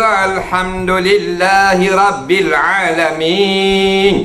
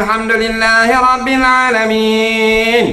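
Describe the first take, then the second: First: Slow recitation in a Malay style. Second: Higher Arabic-style recitation; Arabic accent. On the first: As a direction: draw it out slowly, Malay style. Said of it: "Kalau Melayu ke". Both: Shown as a demonstration.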